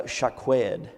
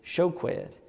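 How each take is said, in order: First: Shaqued said slowly, set apart; shaqued drawn out as a word to compare; careful Hebrew pronunciation. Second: Shoqued said slowly, with an O in the first syllable; shoqued set apart as the sound-alike word; careful Hebrew pronunciation. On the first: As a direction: pronounce shaqued slowly and deliberately. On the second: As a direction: pronounce shoqued slowly and deliberately. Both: Shown as a demonstration. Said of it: "This use of similar sounding words".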